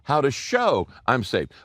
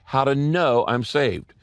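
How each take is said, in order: First: "show" leaned on, falling; stress on show. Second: "know" leaned on, falling; stress on know. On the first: Preacher contrasting James's focus, stressing "show". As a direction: hit the word "show" to set it against "know". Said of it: "the emphasis of James is how to show". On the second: Preacher contrasting Paul's focus, stressing "know". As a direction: hit the word "know" to set it against "show". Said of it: "the emphasis of Paul is how to know". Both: Shown as a demonstration.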